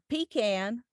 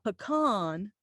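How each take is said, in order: First: The vowel is nasal and not rounded. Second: The vowel is soft, rounded and open. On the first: It sounds rural and blue-collar. "with the not stiff upper lip and the nasality" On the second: It sounds less rural. "that soft, rounded, pear-shaped vowels with the ah"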